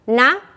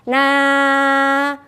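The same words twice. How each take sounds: First: Each syllable is short, one beat long. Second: Each syllable is drawn out and lengthened. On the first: The speaker calls it right. "tetap satu ketukan" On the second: The speaker calls it wrong.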